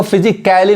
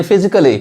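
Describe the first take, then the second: First: फिजिकली with a full a, "fiji-KAL-ly"; फिजिकली misread with open "kæ"; wrong pronunciation. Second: फिजिकली with a reduced vowel, "fizi-klee"; फिजिकली as "fi-zi-kuh-li"; light A. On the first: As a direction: sound the a in फिजिकली as "kai-li". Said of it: "नहीं पढ़ रहा है". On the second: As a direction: say फिजिकली with only a slight a. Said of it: "हल्का सा पढ़ा रहा है". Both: Shown as a demonstration.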